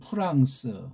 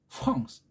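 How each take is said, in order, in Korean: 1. 한국식의 평범한 R 소리입니다. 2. 프랑스식의 목구멍에서 나는 R 소리입니다. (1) "우린 프랑스 그러잖아요" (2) "정작 불란사이드는 프랑스, R 사운드가 달라요"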